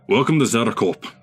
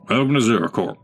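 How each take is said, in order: First: It is said in a Scottish accent. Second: It is said in his plain accent.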